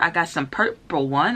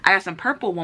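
First: The word purple is pronounced in an odd way. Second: The word purple is pronounced in a normal way. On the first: The speaker calls it wrong. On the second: The speaker calls it right.

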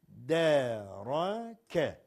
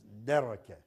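First: Each letter is read slowly and separately. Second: The word is read faster and more fluently. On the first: "Bunları önce tek tek okuyacaksınız" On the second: "Ama birazcık hızlandıracaksınız"

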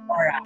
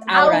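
First: The name begins with an 'or' sound. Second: The name begins with an 'ow' sound. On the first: The speaker calls it wrong. "not Aura" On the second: The speaker calls it right. "A-W-R-A Safely. Aura"

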